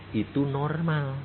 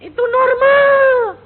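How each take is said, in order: First: Said in the usual way. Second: "Itu normal" much higher and louder, slow, leaning on "normal"; stressed declaration. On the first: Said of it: "father explains to daughter calmly". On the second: Shown as a demonstration. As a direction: proclaim "Itu normal" slowly, hitting "normal" hard. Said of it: "Loh, itu normal nggak?". (ucapkan "Itu normal" pelan, keras, tekan kata "normal")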